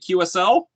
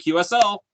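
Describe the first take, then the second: First: It is said as a question. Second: It is said as an answer.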